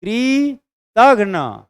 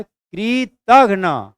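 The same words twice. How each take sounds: First: कृतघ्न slow, loud and higher, syllables stretched; exaggerated model of कृतघ्न; careful pronunciation. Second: कृतघ्न drawn out slowly and loud, every syllable open; teacher's slow, loud model of कृतघ्न; careful pronunciation. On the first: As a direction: open your mouth wide on कृतघ्न. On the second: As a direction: open the mouth wide and stretch कृतघ्न. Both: Shown as a demonstration. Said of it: "सही pronunciation दीजिए".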